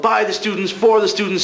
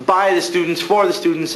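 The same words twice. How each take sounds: First: Much higher imitation of a yelling teacher; mock shout of a drama teacher at full volume; retold yell. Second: Said in the usual way. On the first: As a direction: belt out By and for like a furious teacher. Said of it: "Larker yelled". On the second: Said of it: "Larker is shouting how".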